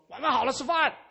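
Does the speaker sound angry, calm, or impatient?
impatient. It is said in an impatient, insistent tone. The announcement has already been repeated several times. "那这个是已经是可能是第三遍在讲了"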